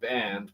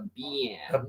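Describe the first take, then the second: First: The word is said in the speaker's own accent. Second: The word is said in another group's accent. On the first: This is how the speaker's own group says it. "We say we call it a band" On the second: This is how another group says it. "they call it a band"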